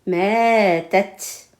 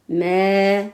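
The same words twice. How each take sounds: First: "mais tête" read as one word, joined together; syllables joined. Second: "mais" said alone as a single syllable; first syllable alone. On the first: Teacher joins "mais tête" for the class. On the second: Teacher says "mais" alone before joining it. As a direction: give "mais" alone, the first part only. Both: Shown as a demonstration.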